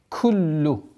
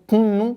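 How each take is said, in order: First: The doubled consonant is an oral l sound. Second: The doubled consonant is a nasal n sound. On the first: The speaker calls it right. "а ротовое к, куллу" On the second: The speaker calls it wrong. "не кунну, кунну, нет, не носовое произношение"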